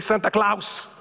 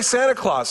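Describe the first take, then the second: First: It is said with a Spanish accent. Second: It is said with a standard English accent. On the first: The speaker calls it wrong. "he would say Santa Claus" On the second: The speaker calls it right. "he couldn't say Santa Claus"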